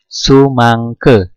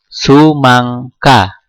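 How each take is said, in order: First: The final vowel is pronounced as 'e'. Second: The final vowel is pronounced as 'a'. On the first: The speaker calls it right. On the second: The speaker calls it wrong.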